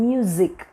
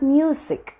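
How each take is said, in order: First: The middle consonant is a voiced z. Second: The middle consonant is a voiceless s. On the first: The speaker calls it right. "It's മ്യൂസിക്" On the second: The speaker calls it wrong. "It's not മ്യൂസിക്"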